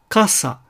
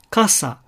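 First: The first syllable is only slightly lengthened. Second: The same.

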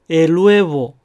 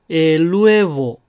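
No difference in how they are said.

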